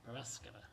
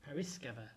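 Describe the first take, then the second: First: The second vowel sounds like 'a'. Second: The second vowel sounds like 'i'. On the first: The speaker calls it wrong. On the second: The speaker calls it right. "The second A is pronounced as an I"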